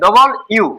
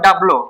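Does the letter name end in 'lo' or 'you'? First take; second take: you; lo. First: The letter name ends with a 'you' sound. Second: The letter name ends with a 'lo' sound. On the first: The speaker calls it right. "কি বলবেন? ডবল ইউ" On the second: The speaker calls it wrong. "Not ডাবলো"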